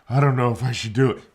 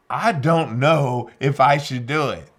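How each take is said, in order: First: Said in the usual way. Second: Should leaned on, slow and louder; slow, louder, weighting should as the doubt; stress on should. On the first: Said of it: "And he said". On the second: Retold or imitated. To the interrogator, a reluctant prisoner says he might not, weighting should. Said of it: "He didn't say he couldn't do it".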